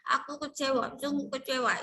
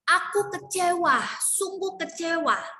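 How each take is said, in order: First: The vowels are pronounced unclearly and blurred. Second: The vowels are pronounced clearly and fully. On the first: The speaker calls it wrong. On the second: The speaker calls it right.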